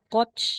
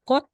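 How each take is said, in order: First: The word ends in a ch sound. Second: The word ends in a plain t sound. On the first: The speaker calls it wrong. "di na siya koch" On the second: The speaker calls it right. "letter T na po"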